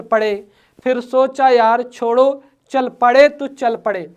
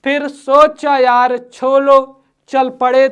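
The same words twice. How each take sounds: First: Said in the usual way. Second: Slow, weighty first read, each word spaced; slow deliberate reading. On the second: Shown as a demonstration. Teacher reads the example slowly to the class.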